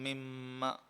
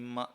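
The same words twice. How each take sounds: First: The doubled m is held with a nasal hum. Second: The doubled m is short, without a nasal hum. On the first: The speaker calls it right. "ആ ഒരു മണിക്കൽ അവിടെ ഉണ്ടാകും" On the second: The speaker calls it wrong. "മിമ്മ എന്ന് പറയുന്നതിന് പകരം"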